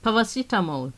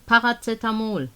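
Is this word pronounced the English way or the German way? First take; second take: English; German. First: It is pronounced with English sounds. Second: It is pronounced with German sounds.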